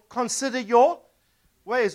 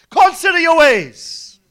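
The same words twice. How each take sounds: First: It is said at normal volume. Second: It is said loudly, like shouting.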